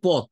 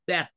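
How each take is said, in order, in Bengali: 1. স্বরধ্বনিটি 'o' ধ্বনি। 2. স্বরধ্বনিটি flat 'a' ধ্বনি। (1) "এটা অ্যাকচুয়ালি পথ" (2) "ফ্ল্যাটেনিং, ফ্ল্যাট এ"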